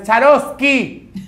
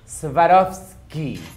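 First: The name begins with a 'ch' sound. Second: The name begins with an 'sw' sound. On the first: The speaker calls it wrong. "más nunca digas Charovsky" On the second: The speaker calls it right. "Es Swarovski"

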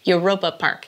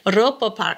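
First: It is pronounced with English sounds. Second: It is pronounced with German sounds. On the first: "So in English, you would say Europa Park, like Europe" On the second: "If you're speaking in German, you say it"

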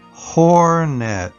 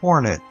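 First: The word is said slowly. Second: The word is said quickly. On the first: "followed by slow one time" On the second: "I'll say each new word fast one time"

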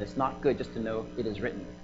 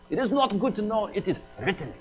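First: It is said in the speaker's plain accent. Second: It is said with an Indian accent.

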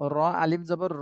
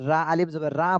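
First: The letter name ends with a short 'o' vowel. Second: The letter name ends with a long 'aa' vowel. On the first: The speaker calls it right. "র বলতে হবে।" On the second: The speaker calls it wrong. "এটা রা বললে ভুল হয়ে যাবে"

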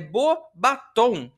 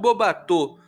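First: The second part sounds like French 'bâtons'. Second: The second part sounds like French 'bateaux'. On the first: It means beautiful wands. The speaker calls it right. "é Beauxbatons" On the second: It means beautiful boats. The speaker calls it wrong. "e não Beauxbatons, porque senão você estaria falando belos barcos"

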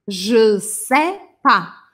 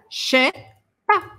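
First: The ne is dropped, the rest is said. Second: Je and sais merge into one che sound. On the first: It is everyday, faster speech. "a gente acaba comendo o ne e deixa o pas" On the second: It is even more informal speech. "um pouquinho mais informal"

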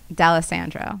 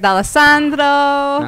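First: The name is said nasally, in an Americanized way. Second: The name is said in a plain, Italian-like way. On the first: This is how the family itself says the name. "You say it D'Alessandro" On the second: This is the formal version of the name. "I don't say it that way"

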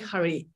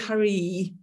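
First: It is said in a Scottish accent. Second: It is said in a Southern English accent.

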